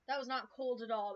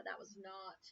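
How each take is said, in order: First: Louder, indignant complaint. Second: Said in the usual way. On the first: Real, not acted. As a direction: push it out, annoyed. Reacting to warm tea.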